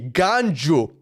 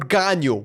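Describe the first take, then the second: First: The middle consonant is a J sound. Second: The middle consonant is a Y sound. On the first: "it doesn't use the J word" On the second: "It's like the Y"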